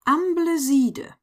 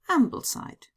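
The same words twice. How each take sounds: First: It is pronounced with a German accent. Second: It is pronounced with an English accent. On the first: "as if they were German words" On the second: "is in fact"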